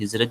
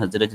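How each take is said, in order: First: حزرج said with a short i after the first consonant, "khizraj"; wrong first vowel. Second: حزرج said with a short a after the first consonant, "khazraj"; correct first vowel. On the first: Teacher showing the mistaken reading, حزرج pronounced "khizraj". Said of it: "زیر زبر کا فرق". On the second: Teacher correcting how the word is read, حزرج pronounced "khazraj". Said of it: "لفظ پڑھا جاتا ہے". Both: Shown as a demonstration.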